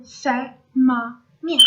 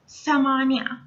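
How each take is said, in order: First: Samania broken slowly into Sa-ma-nia, louder; syllable-by-syllable pronunciation. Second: Said in the usual way. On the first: Shown as a demonstration. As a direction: say Samania in slow, separate syllables for learners. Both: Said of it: "let's say it again".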